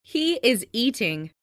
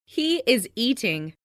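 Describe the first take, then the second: No difference in how they are said.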